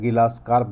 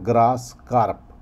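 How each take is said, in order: First: The first word starts with a 'gi' syllable. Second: The first word starts with a 'gr' cluster. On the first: The speaker calls it wrong. "किसान भाई गिलास carp या गिलास carp भी बोलते हैं, जो कि सही नहीं है" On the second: The speaker calls it right. "इसका असली नाम है ग्रास कार्प, तो वही बोलना चाहिए"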